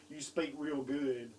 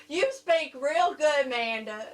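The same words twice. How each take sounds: First: Slow Southern drawl at an everyday pitch; understated, slow mock Southern accent; mock Southern therapist. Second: Loud, slow, higher Southern drawl; hammed-up Southern therapist; thick Southern accent. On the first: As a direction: teasingly echo a Southern therapist, drawn out. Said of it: "I hope your speech therapist wasn't saying". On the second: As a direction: imitate a speech therapist with a heavy Southern twang. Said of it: "had a really thick Southern accent".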